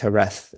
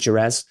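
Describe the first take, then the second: First: The word is not said as spelled. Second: The word is said as it is spelled. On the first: The speaker calls it right. "but it's Jerez" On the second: The speaker calls it wrong. "my mum pronounces it Jerez, which is uh, obviously how it's spelled"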